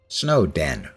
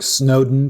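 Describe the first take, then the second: First: The name is said as snow plus den. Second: The name is said like the English surname. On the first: It names a snowy place with dens. "it's Snowden, because it's a snowy place with dens" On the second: It follows the name of an English politician. "I pronounced it Snowden for thirteen years, based on the fact there was an English politician named Lord Snowden"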